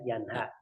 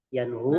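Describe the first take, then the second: First: The vowel after the h is a. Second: The vowel after the h is u. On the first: The speaker calls it right. "walha-nya juga di fathah" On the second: The speaker calls it wrong. "bukan yanhu"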